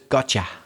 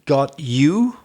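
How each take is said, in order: First: The two words blend into one reduced word. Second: The two words are said fully and separately. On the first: "but it comes out as gotcha" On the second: "It's really got you"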